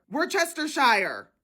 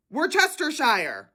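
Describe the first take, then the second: No difference in how they are said.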